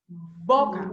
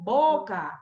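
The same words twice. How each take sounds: First: Boca con cierre marcado de labios; Boca, dicha despacio, labios cerrados y abiertos. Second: Said in the usual way. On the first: Shown as a demonstration. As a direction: pronuncia "Boca" separando bien los labios. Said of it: "miren bien cómo pronunciaron el fonema B". ("Boca" articulada con énfasis) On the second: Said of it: "miren bien cómo pronunciaron".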